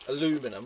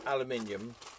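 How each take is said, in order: First: It is said the American way, aluminum. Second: It is said the British way, aluminium.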